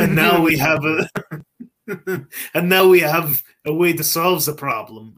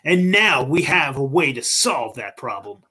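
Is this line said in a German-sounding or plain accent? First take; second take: German-sounding; plain. First: It is said in a German-sounding foreign accent. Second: It is said in a plain, unaccented voice.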